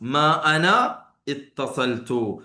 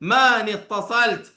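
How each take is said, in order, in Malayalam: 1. ma യും ana യും വേറെ വേറെ വാക്കുകളായി പറയുന്നു. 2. ma യും ana യും ചേർന്ന് maani എന്ന ഒരു വാക്കാകുന്നു. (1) "മാ അന ഇത്തസൽതു എന്നാണ്" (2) "മാ നീ എന്നാണ് കേൾക്കുക"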